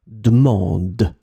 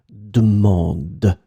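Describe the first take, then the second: Both takes have the same delivery.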